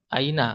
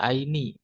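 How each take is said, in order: First: The word ends in the vowel a. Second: The word ends in the vowel i. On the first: The speaker calls it right. "Aina harokat akhirnya tetap aina" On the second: The speaker calls it wrong. "nggak bisa aini"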